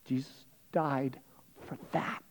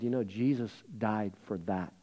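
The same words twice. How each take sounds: First: Much softer and slowed, fading to a breath on for that; slow, softer repeat. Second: Said in the usual way. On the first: Shown as a demonstration. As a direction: let it sink in, slow and hushed.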